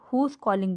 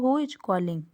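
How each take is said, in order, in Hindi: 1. Who और is जुड़कर who's बन जाते हैं। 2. Who और is अलग-अलग शब्दों की तरह बोले जाते हैं। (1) "आप हुज कॉलिंग भी बोल सकते हैं" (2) "यहाँ पे मैंने हु और इज अलग अलग लिखा हुआ है"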